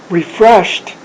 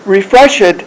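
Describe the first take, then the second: First: The ending is a voiceless t sound. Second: The ending is voiced, not a voiceless t. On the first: The speaker calls it right. "Refreshed is the way you'd pronounce it. So at the end you do actually a t" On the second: The speaker calls it wrong. "Refreshed is Konglish"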